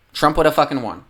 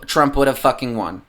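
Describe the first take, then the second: First: "would" pushed higher for emphasis; higher insistent second take of "Trump would have fucking won"; emphatic repeat. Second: Said in the usual way. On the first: Real, not acted.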